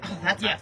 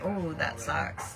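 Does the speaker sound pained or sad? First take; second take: pained; sad. First: It is said in a pained, wincing tone. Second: It is said in a soft, sad tone. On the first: It expresses sympathy for a small hurt. "you say it like, oh, that's painful" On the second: It expresses sorrow over a death. "Like that's so sad"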